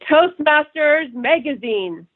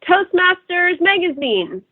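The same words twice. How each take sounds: First: The voice is low, deep and resonant. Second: The voice is thin and high, from the throat. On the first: The speaker calls it right. "It's deeper, it's more resonant" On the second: The speaker calls it wrong. "top of their throat without a deep breath"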